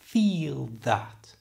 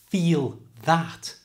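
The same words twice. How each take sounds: First: The L is made with a reduced tongue lift. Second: The L is made with a full tongue lift. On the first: "just take it halfway so that feel that becomes feel that" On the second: "Instead of taking your tongue all the way to the roof of your mouth"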